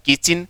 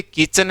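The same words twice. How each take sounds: First: किचन ending in a short "चिन"; correct way. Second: किचन with a flat "चन", as people usually say it; common way. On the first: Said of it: "होता है किचन". (सही उच्चारण "किचिन") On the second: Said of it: "बोलते किचन है". (आम बोलचाल वाला "किचन") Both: Shown as a demonstration.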